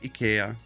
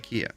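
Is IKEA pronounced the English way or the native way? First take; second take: native; English. First: It is said with the native, non-English pronunciation. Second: It is said with the English pronunciation. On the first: This is how the name is really said. "I know it's IKEA" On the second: This is how English speakers say the name. "the English speakers because they call it I- IKEA"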